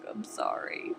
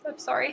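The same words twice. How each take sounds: First: I'm sorry breathed without voice; whispered apology. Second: Said in the usual way. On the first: Real, not acted.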